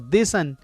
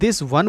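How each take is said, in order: First: The word 'one' is reduced to ''un'. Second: The word 'one' is fully pronounced.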